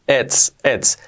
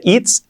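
First: It's said as "ets". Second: It's as "eets"; long I. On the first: Teacher repeating the correct way, it's with E. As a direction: open the I of it's to E. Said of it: "una E". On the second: Teacher showing what to avoid, it's with long I. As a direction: tight Spanish I in it's. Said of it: "nada de it's". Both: Shown as a demonstration.

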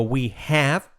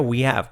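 First: "we have" slowly, with the h breathed; full form. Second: "we have" run together, h nearly dropped; quick linked form. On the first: Teacher showing learners the careful version, full "we have". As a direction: separate "we have", sounding the h. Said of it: "Fijaos cómo digo we have". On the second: Teacher showing the fast version, linked "we have". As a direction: link it as "wee-av". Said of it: "Casi saltamos la H". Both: Shown as a demonstration.

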